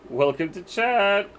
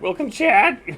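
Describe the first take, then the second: First: Voice crack. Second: Cracks way up, loud; exaggerated voice crack. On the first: Real, not acted. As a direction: voice cracking up high. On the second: Shown as a demonstration. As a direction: push the crack on purpose, loudly. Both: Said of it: "Voice crack".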